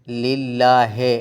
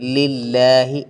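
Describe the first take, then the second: First: The final vowel sounds like 'e'. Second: The final vowel sounds like 'i'. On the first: The speaker calls it wrong. "है नहीं" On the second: The speaker calls it right.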